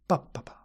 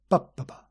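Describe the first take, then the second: Both takes have the same delivery.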